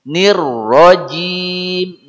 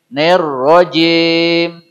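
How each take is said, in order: First: The first vowel sounds like i. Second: The first vowel sounds like e. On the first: The speaker calls it right. "Huruf I jadi E" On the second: The speaker calls it wrong. "Tidak boleh nerrojim"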